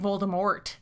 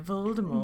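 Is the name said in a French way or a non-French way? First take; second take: non-French; French. First: The name is said without a French pronunciation. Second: The name is said with a French pronunciation. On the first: "they're all saying Voldemort" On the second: "I read it as Voldemort because of the French pronunciation"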